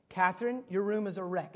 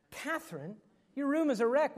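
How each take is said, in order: First: Said in the usual way. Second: Exasperated parent. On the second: Retold or imitated. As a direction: repeat the scolding, fed up now. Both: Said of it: "Next day".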